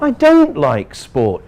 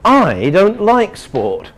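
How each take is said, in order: First: The word 'don't' carries the main stress. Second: The word 'I' carries the main stress. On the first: The claim that I like sport is false. "You're telling everybody I like sport. It's not true" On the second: Ask another person, not me. "we mean ask another person, don't ask me"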